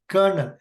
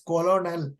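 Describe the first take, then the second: First: The word is said in two syllables, like kernel. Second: The word is said in three syllables, co-lo-nel. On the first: The speaker calls it right. "It has to be pronounced as kernel" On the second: The speaker calls it wrong. "I told wrongly as colonel"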